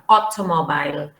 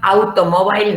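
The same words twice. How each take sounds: First: The first vowel is a wide open O. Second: The first vowel is not an open O. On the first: The speaker calls it right. "it's O" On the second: The speaker calls it wrong. "It's not automobile"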